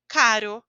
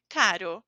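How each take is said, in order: First: "caro" with a single tap R, loud; tapped R. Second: "Caro" with a flapped R, lower; "Caro" said low, single tap R; tapped R, repeated. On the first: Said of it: "a letra R entre duas vogais". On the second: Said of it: "O oposto de barato". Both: Shown as a demonstration.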